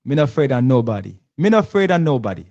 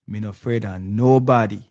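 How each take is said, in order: First: Louder, faster Jamaican patois, rising on the repeat; Jamaican patois impression. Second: Prime Minister's line in light Jamaican patois; host quoting the Prime Minister in Jamaican patois; imitating Jamaican patois. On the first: Host hamming up the Prime Minister's defiant line, loud Jamaican patois. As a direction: belt it out like Andrew Holness in Jamaican patois. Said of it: "Okay, I'm getting it". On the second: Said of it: "the Prime Minister said".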